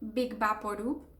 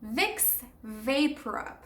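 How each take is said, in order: First: The name is pronounced with Spanish sounds. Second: The name is pronounced with English sounds. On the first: The speaker calls it wrong. "I have always said Big Vaporub de toda la vida, like everybody in Spain" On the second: The speaker calls it right. "You have to say Vicks VapoRub"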